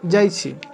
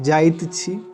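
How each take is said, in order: First: The final t sound of the verb is dropped. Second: The final t sound of the verb is pronounced. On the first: This is the everyday spoken form. "बोलचाल की भाषा में हम लोग अपूर्ण रूप का इस्तेमाल करते हैं" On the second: This is the full form. "ये पूर्ण रूप है"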